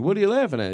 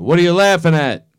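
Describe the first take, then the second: First: The question is asked in a gentle, curious voice. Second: The question is yelled in a harsh voice. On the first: The asker is kindly interested in the joke. The speaker calls it right. "He'd be curious in a nice way" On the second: The asker is angry about the laughing. The speaker calls it wrong. "Oops. No, not he's he wouldn't yell it"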